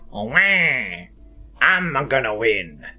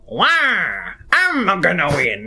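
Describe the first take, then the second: First: It is an impression of Wario. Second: It is an impression of Waluigi.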